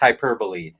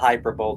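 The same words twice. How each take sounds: First: The word is pronounced differently from how it looks. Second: The word is pronounced the way it looks spelled. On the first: The speaker calls it right. "Actually, it's pronounced hyperbole" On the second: The speaker calls it wrong. "It looks like it should be pronounced that way"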